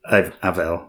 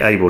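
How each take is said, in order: First: The middle consonant is a V sound. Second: The middle consonant is a B sound. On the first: The speaker calls it right. "should be pronounced as a V" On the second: The speaker calls it wrong. "written with a B"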